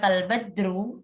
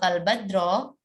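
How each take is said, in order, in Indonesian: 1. Kata ini berakhir dengan vokal u. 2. Kata ini berakhir dengan vokal o. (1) "ya keliru ya" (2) "ya keliru ya"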